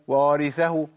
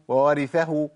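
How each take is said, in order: First: Only one waw sound is heard at the start. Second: The same.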